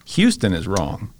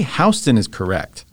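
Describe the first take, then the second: First: "Houston" said slowly as HYOO-stən; HYOO-stən pronunciation. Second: "Houston" said slowly as HOW-stən; HOW-stən pronunciation. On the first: Rejecting the usual city pronunciation, "Houston" as HYOO-stən. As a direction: make "Houston" start with "hyoo". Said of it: "adding in sounds to Houston that aren't in Houston". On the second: Defending the New York street name, "Houston" as HOW-stən. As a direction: make "Houston" start like "house". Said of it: "honestly, Houston is correct". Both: Shown as a demonstration.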